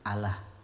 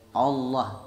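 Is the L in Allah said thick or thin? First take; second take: thin; thick. First: The L sound is light and thin. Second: The L sound is heavy and thick. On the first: The speaker calls it wrong. "itu tidak belajar tajwid" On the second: The speaker calls it right. "tabkhim, tebal"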